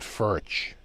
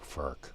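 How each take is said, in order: First: The word ends with a ch sound. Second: The word ends with a k sound. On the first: This is how Americans say the name. "in America we pronounce it Furch, like birch" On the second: This is how the brand itself says the name. "with a more of a k sound, as in Bach"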